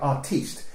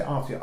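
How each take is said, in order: First: Artiste said the French way, ar-TEEST. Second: Said in the usual way. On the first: Retold or imitated. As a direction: stress the end: artiste, "teest". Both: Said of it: "She wouldn't say artist".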